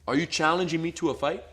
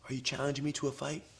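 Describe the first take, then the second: First: It is said calmly and with firm confidence. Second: It is said weakly, without confidence. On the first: The speaker is sure of himself. The speaker calls it right. "say it with confidence, but not crazy" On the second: The speaker lacks confidence. The speaker calls it wrong. "I don't have confidence. You can tell"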